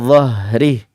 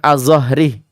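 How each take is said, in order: First: The word begins with an emphatic dh sound. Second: The word begins with a plain z sound. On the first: The speaker calls it right. "Wara'a dhahri" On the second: The speaker calls it wrong. "bukan az-zahri"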